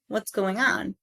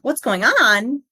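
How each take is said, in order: First: The pitch falls at the end. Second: The pitch rises at the end. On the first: The speaker calls it right. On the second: The speaker calls it wrong.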